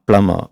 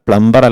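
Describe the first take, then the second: First: No b sound is heard in the middle. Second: A b sound is heard in the middle. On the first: The speaker calls it right. "ബി ആണ് നമ്മൾ silent ആക്കി മാറ്റേണ്ടത്" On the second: The speaker calls it wrong. "പ്ലംബർ അല്ല"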